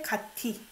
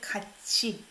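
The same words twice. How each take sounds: First: The middle consonant sounds like t. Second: The middle consonant sounds like ch. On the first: The speaker calls it wrong. "You don't say 같이" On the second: The speaker calls it right. "So I pronounce it as chi sound"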